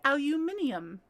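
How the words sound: It is said with five syllables, British style. "If I was English"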